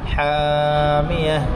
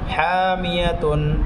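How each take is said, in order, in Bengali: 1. শব্দটি শেষের 'tun' অংশ ছাড়া থেমে যায়। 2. শব্দটি পূর্ণ 'tun' দিয়ে শেষ হয়। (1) "এখন এখানে ওয়াকফ করে পড়বো" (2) "বানানের সময় হরকতের উচ্চারণ করতে হবে"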